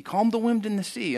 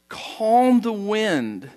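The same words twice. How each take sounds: First: Said in the usual way. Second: "calmed the wind" stretched very slow, epic and grand; hammed-up movie-prophet weight on "calmed"; Charlton Heston grandeur. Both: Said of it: "a little, you know, Charlton Heston thing".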